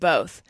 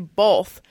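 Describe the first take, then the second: First: The word is said without an L sound. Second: The word is said with an L sound. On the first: The speaker calls it right. "instead of both" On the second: The speaker calls it wrong. "I get irritated when I hear people say both"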